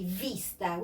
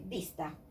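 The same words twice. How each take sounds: First: It begins with a v sound, teeth on lip. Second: It begins with a b sound, both lips. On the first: The speaker calls it wrong. "we never say vista" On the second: The speaker calls it right. "we say vista, like this"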